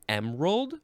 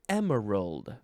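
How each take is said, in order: First: The word is said with two syllables. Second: The word is said with three syllables. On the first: "two syllables" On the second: "three syllables"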